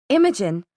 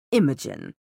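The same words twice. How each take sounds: First: Understated urgency on a name; urgent. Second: Low, unhurried villain greeting; composed villain. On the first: A narrator's reading. Maris breaking into the Inquisitor's tirade, mildly urgent. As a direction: call the name with a touch of urgency. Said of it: "an urgency". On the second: Acted. Valentine appearing before the Inquisitor, low and composed. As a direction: greet her in a lowered, controlled voice.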